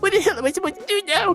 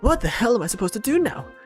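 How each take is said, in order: First: It is a crying voice like Marcius. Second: It is an effortful, emphatic, Sonic-like voice.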